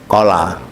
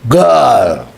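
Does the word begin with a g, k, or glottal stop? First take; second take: k; g. First: The word begins with a k sound. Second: The word begins with a g sound. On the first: This is the standard form. "Al itu kola" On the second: This is how Saudis say it. "Nek wong Saudi, kof itu jadi G"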